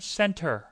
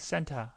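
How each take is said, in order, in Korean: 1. 마지막 r 소리는 강하게 발음됩니다. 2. 마지막 r 소리는 거의 생략됩니다. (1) "미국 사람들은 center 이렇게 하죠" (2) "영국 사람들은 맨 끝에 나온 er, or, ir 발음을 그냥 거의 안 합니다"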